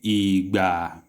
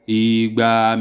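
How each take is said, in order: First: Both syllables are said on a low tone. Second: Both syllables are said on a mid tone. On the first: It means time. "lo lo igba" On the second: It means two hundred. "Igba made made"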